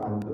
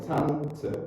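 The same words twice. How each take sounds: First: "Tante" with a plain, unpuffed T; Indonesian-style T. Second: "Tante" with puffed, English-style Ts; exaggerated English T. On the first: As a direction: keep the T in "Tante" light, the Indonesian way. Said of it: "Jangan kayak orang Indonesia". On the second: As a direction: overdo the T in "Tante" with a burst of air. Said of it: "dalam bahasa Inggris kita lebay". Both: Shown as a demonstration.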